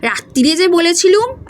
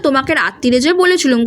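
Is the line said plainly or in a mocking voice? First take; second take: mocking; plain. First: It is said in a mocking, mimicking voice. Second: It is said in a plain voice.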